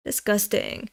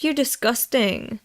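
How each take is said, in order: First: Quiet repeat. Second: Said in the usual way. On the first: Shown as a demonstration. Repeating the manga line to herself, murmured softly. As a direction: murmur "Disgusting." back to herself, much softer.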